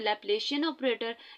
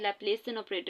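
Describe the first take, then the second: First: The consonant before '-ian' sounds like sh. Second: The consonant before '-ian' sounds like s. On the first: The speaker calls it wrong. "आप कुछ अ, जो है pronounce ऐसे करते हैं" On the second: The speaker calls it right. "जो प्रोनाउंसिएशन है वो ये है"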